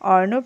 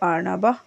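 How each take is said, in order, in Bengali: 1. শব্দটি শ্বাসযুক্ত 'h' ধ্বনি ছাড়া শেষ হয়। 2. শব্দটি শ্বাসযুক্ত 'h' ধ্বনি দিয়ে শেষ হয়। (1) "অর্ণব না বলে" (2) "শেষে বিসর্গর উচ্চারণটা আমি করেছি"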